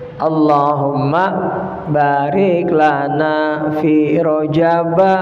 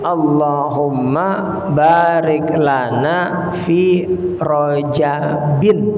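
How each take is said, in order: First: The last word ends with a plain 'a' vowel. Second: The last word ends with an 'in' sound. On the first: The speaker calls it wrong. "orang membaca Rajab dengan rojaba" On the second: The speaker calls it right. "kasroh, bukan fathah"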